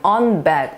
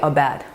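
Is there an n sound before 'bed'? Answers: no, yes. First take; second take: yes; no. First: An n sound links the article to 'bed'. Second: A bare vowel article runs smoothly into 'bed'. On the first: The speaker calls it wrong. "그럼 되게 부담스러워요" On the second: The speaker calls it right. "자음 앞에는 모음으로 부드럽게"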